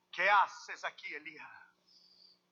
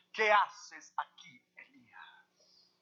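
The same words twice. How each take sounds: First: Said in the usual way. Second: Slow whisper. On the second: Acted. Voice of God, second time.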